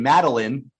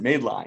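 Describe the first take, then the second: First: The name is said as one smooth word. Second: The name is split into 'made' and 'line'. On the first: The speaker calls it right. "the name Madeline" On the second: The speaker calls it wrong. "pronounce it made line"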